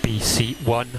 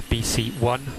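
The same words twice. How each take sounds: The two takes are said the same way.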